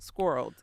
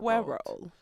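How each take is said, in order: First: The word is said with one syllable. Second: The word is said with two syllables. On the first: "it's one" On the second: "then it's a two syllable word"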